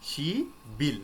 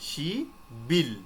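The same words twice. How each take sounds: Both takes have the same delivery.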